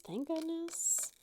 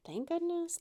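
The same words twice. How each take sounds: First: High, slow, drawn-out relief; slow relieved sigh. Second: Said in the usual way. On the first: Real, not acted. Relieved she didn't mess up, slow and high. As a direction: let the relief stretch out.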